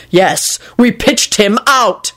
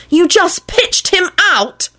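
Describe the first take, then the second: First: Slow, emphatic retort, a little higher; mild shout. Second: High, drawn-out accusation without much volume; mock scream of disbelief, pitched way up; accusing scream. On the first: Man answering her accusation, mild defiant shout. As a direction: throw the admission back, firmly stretched. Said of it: "he shouted". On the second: Woman confronting the man over the graveyard, accusing mock scream. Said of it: "Elizabeth screamed accusingly at Quentin". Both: A narrator's reading.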